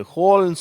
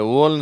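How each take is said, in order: First: ஹோல்னு with the h sounded; correct H pronunciation. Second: ஓல்னு starting on the vowel, no h; wrong form, H dropped. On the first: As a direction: begin ஹோல்னு on h, no w. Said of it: "இது ஹோல்னு சொல்லணும்". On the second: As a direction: show the mistake: OLE for HOLE. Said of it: "ஓல்னு சொல்லக்கூடாது". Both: Shown as a demonstration.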